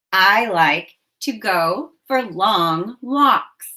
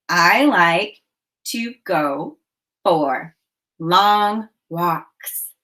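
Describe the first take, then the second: First: Each word apart, slowly; slow and spaced. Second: A pause after each word. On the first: Teacher modelling the sentence for counting, slow. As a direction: say I like to go for long walks one word at a time. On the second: Teacher counting the words out with pauses. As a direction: tap out I like to go for long walks word by word. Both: Shown as a demonstration. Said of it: "Say it with me".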